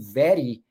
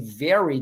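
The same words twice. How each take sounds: First: The R is a quick tapped flap. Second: The R is a smooth American R. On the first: The speaker calls it wrong. "they say very" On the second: The speaker calls it right. "where you're going to say very"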